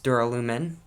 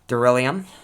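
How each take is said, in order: First: The word ends with the sounds 'lumin'. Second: The word ends with the sounds 'lium'. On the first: The speaker calls it right. "It's duralumin" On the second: The speaker calls it wrong. "this is one I pronounced wrong, I pronounced it duralium"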